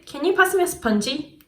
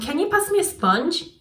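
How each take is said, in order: First: It is said with a Korean accent. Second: It is said with a native English accent. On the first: The speaker calls it wrong. "한국식 억양이 튀어나오고" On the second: The speaker calls it right. "이래야 되는데"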